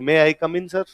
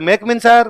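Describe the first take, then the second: First: Each word is said separately and fully. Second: The words are rushed and run together.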